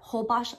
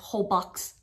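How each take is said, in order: First: The name is pronounced differently from its spelling. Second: The name is pronounced just as it is spelled. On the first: The speaker calls it right. "But Holbox Island" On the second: The speaker calls it wrong. "I was mispronouncing it forever as Holbox Island. It sounds that way"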